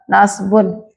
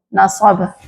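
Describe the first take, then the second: First: The word ends with a full '-un' ending. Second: The word stops without a final vowel ending. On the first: "Tapi kalau pakai harokat nasbun" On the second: "Kalau kita baca mati jadi nasab"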